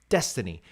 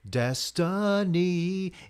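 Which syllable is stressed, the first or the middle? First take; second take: first; middle. First: The stress is on the first syllable. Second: The stress is on the middle syllable. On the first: "The emphasis is on des" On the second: "it emphasizes the middle again"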